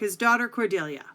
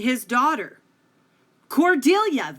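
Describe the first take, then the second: First: The words run together without a pause. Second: There is a pause before Cordelia.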